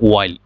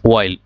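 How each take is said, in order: No difference in how they are said.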